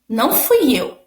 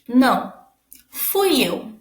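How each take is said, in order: First: It is said without a pause. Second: There is a pause after the first word.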